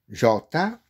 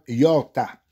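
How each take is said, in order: First: The word begins with a soft j sound. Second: The word begins with a y sound. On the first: "J O R T A" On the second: "vous pouvez prononcer Yorta, I O R T A"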